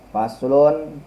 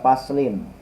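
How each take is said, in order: First: The word ends with the vowel u before n. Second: The word ends with the vowel i before n. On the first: "Boleh dibaca faslun" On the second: "boleh dibaca paslin"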